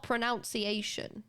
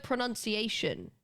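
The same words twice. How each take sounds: First: Pronunciation with "noun" in the middle; pronunciation with the vowel of "pronounce"; wrong pronunciation. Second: Pronunciation with "nun" in the middle; pronunciation with a short U, not "noun"; standard pronunciation. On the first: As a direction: say pronunciation as pro-NOUN-ciation. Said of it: "It's not pronunciation". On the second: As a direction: say pronunciation as pro-NUN-ciation. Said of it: "It's this one". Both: Shown as a demonstration.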